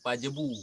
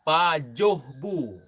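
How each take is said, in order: First: The middle syllable is said as 'je'. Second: The middle syllable is said as 'joh'. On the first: The speaker calls it wrong. "bukan pajebu" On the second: The speaker calls it right.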